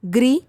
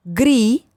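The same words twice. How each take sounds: First: ग्री with a short i, rising; ग्री said as quick "gri"; short vowel. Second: ग्री with a held ee; ग्री said as long "greee"; long vowel. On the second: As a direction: stretch the ee in ग्री. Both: Shown as a demonstration. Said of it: "बारह खड़ी के format में".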